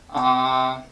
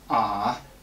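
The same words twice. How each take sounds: First: The pitch stays level without changing. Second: The pitch drags down low, then is released. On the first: "you keep the pitch, and you don't change it" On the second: "Just drag it down and then release it"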